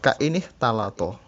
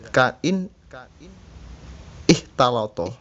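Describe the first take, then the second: First: The two words run together without a glottal stop. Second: The second word starts with a separate glottal stop.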